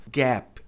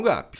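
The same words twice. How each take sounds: First: GAP with the vowel of cat; GAP, clean final P; correct English gap. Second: GAP as "GAH-pee"; wrong, Brazilianized gap. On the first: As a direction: say "gap" as "ghep", ending on the P. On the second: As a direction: add an i after the P of "gap". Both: Shown as a demonstration. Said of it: "Gap e não gap".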